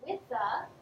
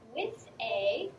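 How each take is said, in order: First: The words run together in connected speech. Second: The words are said separately and clearly.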